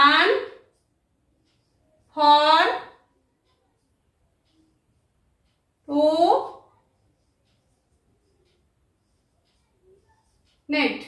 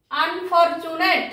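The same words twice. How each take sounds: First: আন, ফর, টু, নেট with long pauses; each syllable of আন, ফর, টু, নেট standing alone; split into syllables. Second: unfortunate slowly, as one joined word; pronunciation demo. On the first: Teacher showing four parts of a word, syllable by syllable. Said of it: "চারটি অংশ আছে". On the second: Teacher giving the word's pronunciation, slow and joined. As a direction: stretch out unfortunate without breaking it up. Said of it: "উচ্চারণটি হলো". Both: Shown as a demonstration.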